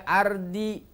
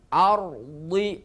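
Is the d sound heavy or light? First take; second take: light; heavy. First: The d sound is light and thin. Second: The d sound is heavy and thick. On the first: The speaker calls it wrong. "tidak boleh" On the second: The speaker calls it right. "Dhadnya juga dibaca tafkhim"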